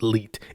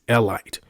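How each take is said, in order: First: The last syllable rhymes with feet. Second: The last syllable rhymes with bite. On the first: The speaker calls it wrong. "There is no word that ends in I T E that sounds like elite" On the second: The speaker calls it right. "It's elite"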